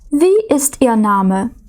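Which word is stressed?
Wie. The stress is on the word wie. The name was not heard and is asked again. "коли ми щось перепитуємо, ми не почули"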